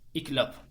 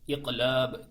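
First: The word ends with a voiceless p sound. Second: The word ends with a voiced b sound. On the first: This is the everyday Turkish form of the term. "Normal Türkçe'de iklap diyoruz" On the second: This is the original form of the term. "Az önce söylediğim kelimenin aslıydı. İklab diye"

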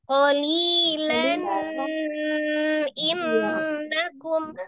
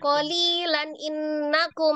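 First: The nun sound is held longer. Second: The nun runs quickly into the next word. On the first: "Kalau yang ditahan" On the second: "cepat loncat"

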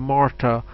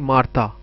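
First: It is said with an American pronunciation. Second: It is said with a Hindi-speaker pronunciation. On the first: "if it's an American, it will say Martha" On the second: "We will say Martha"

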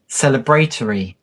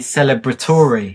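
First: It is said the British way. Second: It is said the American way.

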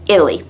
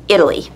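The two takes are said the same way.

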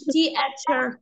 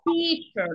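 First: The vowel letters are said as two separate sounds. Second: The vowel letters are said as one sound. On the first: The speaker calls it wrong. "انا ما قلتش تي اتشر" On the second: The speaker calls it right. "انا قلت تيشر، نطقت الاي ا توجذر"

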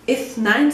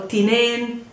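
First: It is said in the Standard Arabic form. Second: It is said in the Palestinian dialect form.

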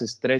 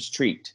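First: The vowel sounds like a short 'e'. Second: The vowel sounds like a long 'ee'. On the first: The speaker calls it wrong. "ya no digas street" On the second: The speaker calls it right. "sino street"

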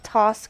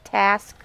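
First: The word is said in a non-American accent. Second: The word is said in an American accent. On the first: The speaker calls it right. "I said task" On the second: The speaker calls it wrong. "not task. Ick words that Americans say"

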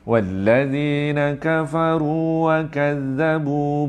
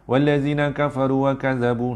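First: It is recited slowly with full vowel lengths. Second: It is recited quickly with shortened vowels. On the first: The speaker calls it right. "so dia kena relax" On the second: The speaker calls it wrong. "tuan-tuan akan baca laju. Laju kan tuan?"

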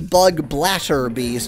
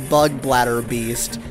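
First: The name is said in a non-American way. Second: The name is said the usual American way. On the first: "I'm trying to call it a bug bladder beast instead of" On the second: "which is how an American would usually pronounce it"

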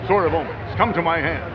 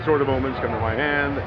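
First: It is said in a bigger, more dramatic voice. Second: It is said in a plain, conversational voice. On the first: "just a little more dramatic on screen" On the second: "I might be standing here talking to you and saying"

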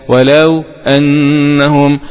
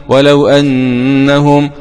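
Both takes have the same delivery.

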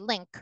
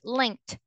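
First: The word ends without a final T sound. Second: The word ends with a clear final T sound. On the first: The speaker calls it wrong. "they didn't say it with a T sound" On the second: The speaker calls it right. "with a T sound"

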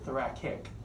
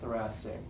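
First: The middle 'c' is said with a k sound. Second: The middle 'c' is said with an s sound. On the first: The speaker calls it wrong. "sometimes I hear you in lab pronounce it thoracic" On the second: The speaker calls it right. "spelled C-I-C, but it's pronounced S-I-C"

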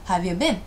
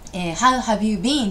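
First: The words are squeezed together into one chunk. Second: Each word is said fully and separately. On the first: The speaker calls it right. "クシュッとチャンクで覚えましょう" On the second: The speaker calls it wrong. "How have you been? ではなくて"

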